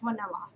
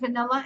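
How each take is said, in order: First: It begins with a sound other than V. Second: It begins with a clear V sound. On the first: The speaker calls it wrong. "she can't say V" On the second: The speaker calls it right. "Instead of vanilla"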